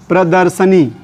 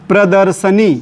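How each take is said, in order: Both takes have the same delivery.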